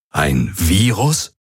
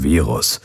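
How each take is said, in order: First: Virus drawn out slowly with a rising tune; a startled Ein Virus? rising at the end; alarmed question. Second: Said in the usual way. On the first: A narrator's reading. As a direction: ask in disbelief, slowly. Hubert reacts in alarm.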